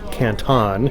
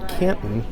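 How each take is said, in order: First: It is pronounced the way the Chinese city is. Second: It is pronounced the American way, for Ohio. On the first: The speaker means the place in China. The speaker calls it wrong. "you don't say Canton" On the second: The speaker means the city in Ohio. The speaker calls it right. "if you are in the U S, you say Canton"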